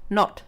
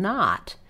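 First: The vowel is rounded, with little jaw opening. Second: The vowel is open, with the jaw dropped. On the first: The speaker calls it wrong. "If you don't drop your jaw and you use your lips and say not" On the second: The speaker calls it right. "that's very different than not"

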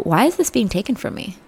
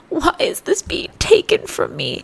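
First: It sounds gentle and curious. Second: It sounds resentful and complaining. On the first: The struggle is seen as something to learn from. The speaker calls it right. "Gentle inflection reframing is life-changing" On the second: The struggle feels like an unfair loss. The speaker calls it wrong. "Go from"

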